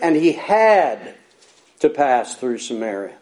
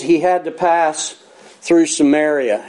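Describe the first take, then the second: First: 'Had to' is said with strong force. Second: It is read plainly without special force.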